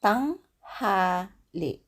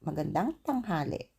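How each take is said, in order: First: Tanghali drawn out very slowly; slow take. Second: Magandang tanghali said quickly together; normal speed. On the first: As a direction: say tanghali syllable by syllable. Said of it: "make it a bit faster". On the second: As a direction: run Magandang tanghali smoothly. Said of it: "Then you make it a bit faster". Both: Shown as a demonstration.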